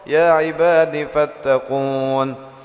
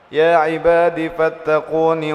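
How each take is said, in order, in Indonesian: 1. Fattaqun berakhir pada konsonan tanpa vokal. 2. Vokal pendek mengikuti fattaqun, menyambung ke kata berikutnya.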